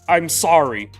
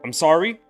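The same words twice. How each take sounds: First: It sounds like an apology. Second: It sounds like calling for someone's attention.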